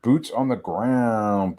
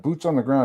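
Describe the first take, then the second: First: Slow mocking catchphrase. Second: Said in the usual way. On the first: Shown as a demonstration.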